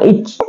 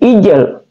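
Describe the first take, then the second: First: The j sound ends flat without a bounce. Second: The j sound is released with a bounce. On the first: The speaker calls it wrong. "bukan ij" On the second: The speaker calls it right. "tapi ijl"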